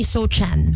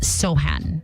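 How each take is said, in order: First: The middle consonant is said as 'ch'. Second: The middle consonant is said as 'h'. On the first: The speaker calls it wrong. "So parang siyang Jeremy Sochan" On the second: The speaker calls it right. "silent C ... you say it Sohan"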